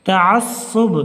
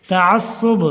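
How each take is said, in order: The two takes are said the same way.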